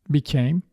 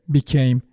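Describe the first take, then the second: Both takes have the same delivery.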